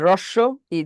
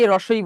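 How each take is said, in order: First: A short break separates the two words. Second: The two words run together without a break. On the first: The speaker calls it right. "এটা space দিয়ে বলতে হবে" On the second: The speaker calls it wrong. "আমরা অনেকে রস্বই বলি"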